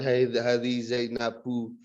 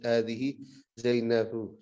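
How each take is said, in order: First: The final vowel is pronounced fully and clearly. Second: The final vowel is thin and barely audible. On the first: The speaker calls it wrong. "secara terang-terangan" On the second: The speaker calls it right. "suaranya kayak tipis kayak kayak samar"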